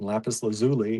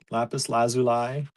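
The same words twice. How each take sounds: First: It is said the American way. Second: It is said the British way. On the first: "is American" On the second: "is U K"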